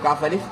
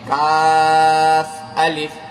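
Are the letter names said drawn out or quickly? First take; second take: quickly; drawn out. First: The letter names are said quickly and clipped. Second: The letter names are said slowly and drawn out. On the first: The speaker calls it wrong. "काफ अलिफ नहीं" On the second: The speaker calls it right. "जल्दी जल्दी नहीं, आराम से ... पूरा खींच करके"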